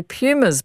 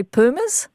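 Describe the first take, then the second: First: Pumas said as PYOO-muhz; English "Pumas" with a y-glide after the P; sports announcers' pronunciation. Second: Pumas said as POO-muhz; questioning "Pumas" with a plain oo, no y-glide; Spanish-style pronunciation. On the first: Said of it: "sports announcers say Pumas". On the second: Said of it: "but you'd say Pumas?". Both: Shown as a demonstration.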